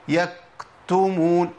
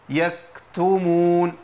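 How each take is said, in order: No difference in how they are said.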